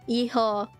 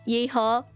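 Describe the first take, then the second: Both takes have the same delivery.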